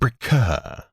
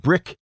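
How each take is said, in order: First: The final k ends with a breathy release. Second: The final k ends short with no breath. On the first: "a drawn-out exhalation" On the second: "a very short, hard sound"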